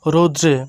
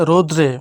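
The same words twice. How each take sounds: The two takes are said the same way.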